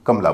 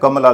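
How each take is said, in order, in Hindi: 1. "म" के बाद का स्वर छोड़ दिया जाता है। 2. "म" के बाद का स्वर पूरा बोला जाता है। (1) "म का जो अस्वर है उसे हम गायब कर देते हैं" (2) "बोलते समय कमला नहीं"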